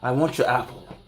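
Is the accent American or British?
British. It is said in a sinister British accent. It sounds menacing. "it's going to sound a little bit more sinister"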